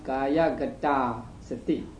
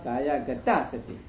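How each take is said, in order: First: The final vowel of gata is long. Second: The final vowel of gata is short. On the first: "the long vowel is not shortened" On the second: "and not"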